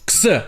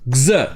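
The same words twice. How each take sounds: First: It sounds like k followed by s. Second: It sounds like g followed by z. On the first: "le son X, comme si c'était K S" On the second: "le X prononcé X, comme si c'était G Z"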